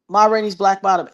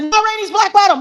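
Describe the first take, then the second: First: The phrase is said at a normal, calm volume. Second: The phrase is screamed at a loud volume. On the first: "So I just said" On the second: "I screamed it"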